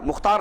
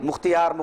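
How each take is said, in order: First: The word is said as mukh-tar, two syllables. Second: The word is said as mukh-ti-yar, three syllables. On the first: The speaker calls it right. "मुख्तार असल नाम है" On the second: The speaker calls it wrong. "मुख्तियार गलत है ये"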